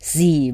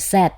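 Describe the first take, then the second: First: It is said the American way, as zee. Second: It is said the British way, as zed.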